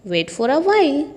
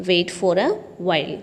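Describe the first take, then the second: First: Said in the usual way. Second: Drawn out, every word of "wait for a while" slow and lower; slow teaching repeat. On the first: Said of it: "teacher repeats phrase". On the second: Shown as a demonstration. Teacher drilling students on an English phrase, slow and clear. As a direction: spell it out slowly for learners. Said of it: "teacher repeats phrase slowly".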